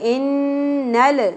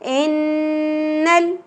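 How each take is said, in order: First: The final L has an echoing bounce. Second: The final L is held without a bounce. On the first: The speaker calls it wrong. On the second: The speaker calls it right.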